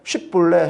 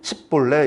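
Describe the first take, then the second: First: The word begins with a sh sound. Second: The word begins with an s sound. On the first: The speaker calls it right. "쉽볼레 해보라 했더니" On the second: The speaker calls it wrong. "에브라임 사람들이 쉬 발음을 못해요"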